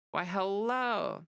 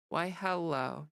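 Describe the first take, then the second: First: Slow, high, exaggerated "Why, hello"; drawn-out greeting. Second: Said in the usual way. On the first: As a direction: stretch it out like a charming host. Playful greeting to viewer Andrew.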